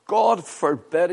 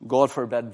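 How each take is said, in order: First: Slow and louder, leaning hard on God; firm pulpit cry on God forbid; emphatic God forbid. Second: Said in the usual way. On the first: Shown as a demonstration. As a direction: proclaim God forbid slowly with weight on God. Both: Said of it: "Here's the emphatic".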